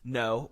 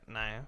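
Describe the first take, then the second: First: Said in the usual way. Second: Quiet, relaxed Southern "Nah"; casual Southern accent. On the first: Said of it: "when I say no". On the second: Shown as a demonstration. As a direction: let "no" slacken into a Southern "Nah". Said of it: "just a chill context".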